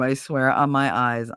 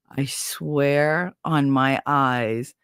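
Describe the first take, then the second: First: Said in the usual way. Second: Very slow, weighted words; slow, earnest swearing, retold; solemn oath. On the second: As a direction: draw out every word of the vow.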